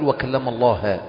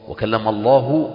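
First: The word Allah ends with an a vowel. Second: The word Allah ends with a u vowel. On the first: Moses is the one who speaks. The speaker calls it wrong. "يبقى الله هو المكلم وموسى هو المتكلم" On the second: God is the one who speaks. The speaker calls it right. "يبقى المتكلم هو الله"

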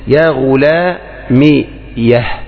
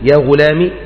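First: The word ends in 'yah' with a final h. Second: The word ends on a plain long 'i'. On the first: "هي على خطا يعني لبيان فتح الياء" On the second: "بين أن تسكن الياء فتقول يا غلامي"

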